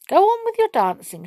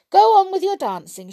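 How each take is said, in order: First: High gracious queen voice; lightly voiced gentle queen; Queen's voice. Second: High, pensive queen voice; thoughtful queen. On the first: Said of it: "she said". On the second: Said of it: "she said, looking thoughtful". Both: A narrator's reading.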